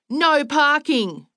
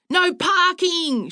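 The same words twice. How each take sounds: First: Raised, slow, drawn-out call; mild narrated yell. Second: High, slow, drawn-out holler; screaming back. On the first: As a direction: call it out high, stretching both words. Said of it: "pointed to the sign and yelled". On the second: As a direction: scream it back higher, stretching "parking". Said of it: "she screamed back". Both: A narrator's reading.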